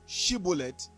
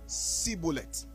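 First: The word begins with a 'sh' sound. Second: The word begins with an 's' sound. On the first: The speaker calls it right. "Instead of Shibolleth" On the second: The speaker calls it wrong. "they will say Shibolleth, because the way their tongue was wired, pronouncing the word sh is a problem for them"

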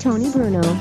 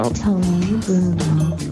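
First: It is said very fast. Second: It is said very slowly.

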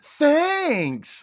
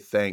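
First: It is said in an overly happy way. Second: It is said in a flat, plain way.

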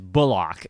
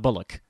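First: The second syllable is a full, clear 'ock'. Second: The second syllable is reduced and weak. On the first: The speaker calls it right. "His last name actually is Bullock. ... Got to give it the full Ock treatment" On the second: The speaker calls it wrong. "It's not Bullock"

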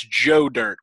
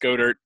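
First: The name starts with a soft G sound. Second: The name starts with a hard G sound. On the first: "with a soft G" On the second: "That's Dallas Go Dirt"

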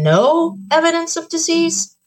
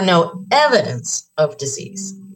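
First: The word no carries the main stress. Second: The word evidence carries the main stress. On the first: Nothing is there at all. "you're saying we don't see any" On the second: Something might be there but is not detected. "there might be some there"

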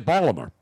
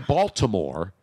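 First: It is said in a clipped local accent. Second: It is said in a standard, careful pronunciation. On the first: This is how the locals say it. "They'll say Baltimore" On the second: This is how outsiders say it. "They don't say Baltimore"

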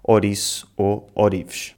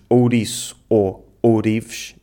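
First: The first vowels are a plain o. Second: The first vowels are the ou diphthong. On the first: "transformamos o ditongo ou em o" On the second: "Em vez de dizermos"

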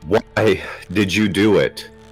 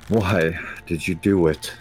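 First: It is yelled loudly. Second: It is said with some anger.

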